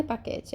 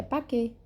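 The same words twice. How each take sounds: First: Paquete said with the final T sounded, pakete; wrong final T. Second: Paquet said pake with no T; correct silent T. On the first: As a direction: say paquete with the T, the mistake. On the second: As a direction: drop the T, paquet ends on the vowel. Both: Shown as a demonstration. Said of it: "a última consoante não é pronunciada".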